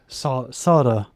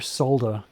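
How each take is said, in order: First: The L sound is left out. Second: The L sound is clearly pronounced. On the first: The speaker calls it wrong. "as a lot of Americans say" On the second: The speaker calls it right. "I pronounce the L in it"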